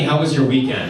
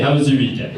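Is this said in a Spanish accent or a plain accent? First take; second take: plain; Spanish. First: It is said in the speaker's own accent. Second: It is said in a put-on Spanish accent. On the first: "So I'll do my voice for her" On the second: "I can't do Spanish accents. But I'll try"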